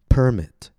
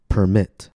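First: The stress is on the first syllable. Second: The stress is on the second syllable. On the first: It is a noun: an official license. "First, I'll say it as a noun, with stress on the first syllable" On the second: It is a verb: to allow. "After that, I'll say it as a verb, with stress on the second syllable"

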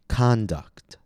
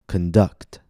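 First: The stress is on the first syllable. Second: The stress is on the second syllable. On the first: It is a noun: behavior. "First, I'll say it as a noun, with stress on the first syllable" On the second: It is a verb: to lead or direct. "After that, I'll say it as a verb, with stress on the second syllable"

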